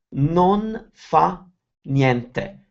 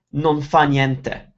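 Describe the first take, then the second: First: Slow, pause after "Non fa", then "niente"; word by word. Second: "Non fa niente" joined as one block; words brought together. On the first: Teacher separates the phrase for learners, word by word. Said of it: "We never pronounce individual words". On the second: Teacher shows a block of words, run together. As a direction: slowly link "Non fa niente" without gaps. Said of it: "we bring them together". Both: Shown as a demonstration.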